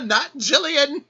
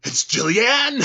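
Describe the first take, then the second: First: Screamed, high "Jillian" with a reduced "-yun" ending; outraged shriek, "Jillian" with unstressed last syllable; mock wrong pronunciation. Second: Screamed, high "Jillian" with a full "-ANN" ending; outraged shriek, "Jillian" ending in a clear "ann"; indignant name correction. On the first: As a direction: yell "Jillian" as JILL-yun, rejecting it. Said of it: "upset because you called her Jillian". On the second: Acted. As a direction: yell "Jillian" as Jilly-ANN, correcting them. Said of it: "And she's like".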